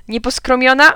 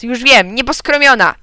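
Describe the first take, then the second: First: "Nieposkromiona" high and loud with a questioning rise; yelled question. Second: "nieposkromiona" high and loud with a falling end; yelled exclamation. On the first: Kleofas guessing the password, yelling "Nieposkromiona" with rising end. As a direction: call out "Nieposkromiona" as a guess, ending upward. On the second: Kleofas sure of the password, yelling "nieposkromiona" as exclamation. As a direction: exclaim "nieposkromiona" triumphantly, landing downward. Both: A narrator's reading. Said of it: "wrzasnął Kleofas".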